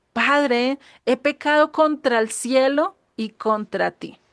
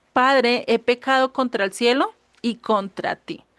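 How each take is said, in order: No difference in how they are said.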